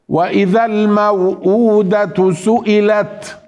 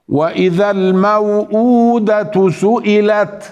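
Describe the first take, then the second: No difference in how they are said.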